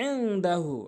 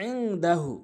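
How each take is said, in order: Both takes have the same delivery.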